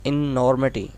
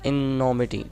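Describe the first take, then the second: First: इनॉर्मिटी said as in-or-mi-ti, the r clearly sounded; corrected with r. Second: इनोमिटी said as in-o-mi-ti, with no r sound; इनोमिटी, r dropped: in-o-mi-ti; mispronounced without r. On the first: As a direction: say इनॉर्मिटी with a distinct r, in-or-mi-ti. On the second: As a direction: say इनोमिटी with the r left out, in-o-mi-ti. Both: Shown as a demonstration. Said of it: "sorry, आर भी है इसके अंदर".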